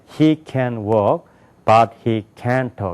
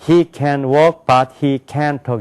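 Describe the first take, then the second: First: Key words are louder, higher and longer. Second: Every syllable gets roughly even weight. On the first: The speaker calls it right. "이렇게 된다고요" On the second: The speaker calls it wrong. "이렇게 얘기한다고요. 그렇게 발음 안 된다는 거예요"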